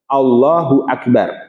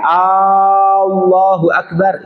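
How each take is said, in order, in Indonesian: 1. Tidak ada vokal yang dipanjangkan secara tidak biasa. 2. Vokal pembuka pada Allah dipanjangkan.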